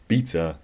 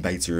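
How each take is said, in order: First: "beta" said BEE-tuh; "beta" rhyming with "Peter"; alternative pronunciation. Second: "beta" said BAY-tuh; "beta" rhyming with "later"; alternative pronunciation. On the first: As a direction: say "beta" with a long ee first vowel. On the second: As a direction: say "beta" with an ay first vowel. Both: Shown as a demonstration. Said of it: "however you pronounce beta".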